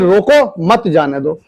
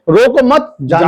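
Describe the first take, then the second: First: There is a pause after रोको. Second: There is a pause after मत.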